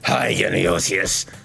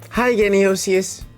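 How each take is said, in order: First: It is said in a deep demonic voice. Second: It is said in a high-pitched voice. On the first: "I'm reading it in a demon's voice" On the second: "I'm gonna stop reading her voice in a high-pitched voice"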